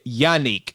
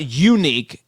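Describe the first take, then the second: First: The name begins with a 'yah' sound. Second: The name begins with a 'yoo' sound. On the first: The speaker calls it right. "it's y- Yannick" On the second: The speaker calls it wrong. "it's not unique"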